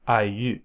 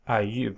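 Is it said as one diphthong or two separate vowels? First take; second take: two vowels; two vowels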